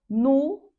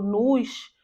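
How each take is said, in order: First: The word ends on the vowel, with no s. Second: The word ends with an audible s sound. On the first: The speaker calls it right. "nós não pronunciamos S no final da palavra" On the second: The speaker calls it wrong. "vai querer puxar esse S"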